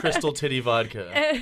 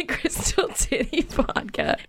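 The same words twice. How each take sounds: First: Laughing. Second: Slow, breathy laughing repeat; laughing through words. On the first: Joking repeat, laughing. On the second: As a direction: say it while cracking up. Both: Real, not acted.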